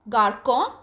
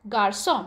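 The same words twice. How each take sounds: First: The middle consonant is a hard K sound. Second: The middle consonant is a soft S sound. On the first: The speaker calls it wrong. "Instead of K" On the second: The speaker calls it right. "it's pronounced as garçon because the cédille is placed on the letter C"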